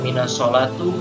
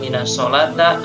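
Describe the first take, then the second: First: The last word ends with an u vowel. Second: The last word ends with an a vowel. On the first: "Kenapa tidak boleh dibaca" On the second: "Kenapa tidak boleh dibaca"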